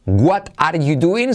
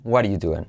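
First: "What are you doing?" slow with full T, doing as duin; careful version. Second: "What are you doing?" quick and soft, waɾu duen; native version. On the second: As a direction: blur "What are you doing?" into one flapped phrase. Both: Shown as a demonstration. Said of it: "se convierte en".

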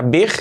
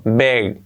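First: Big with a tight "ee" sound; Spanish I. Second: Relax big into "beg". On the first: Teacher warning of the mistake, big with Spanish I. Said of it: "cuidado que no sea big". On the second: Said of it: "la I como una E". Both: Shown as a demonstration.

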